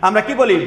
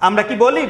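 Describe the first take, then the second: Both takes have the same delivery.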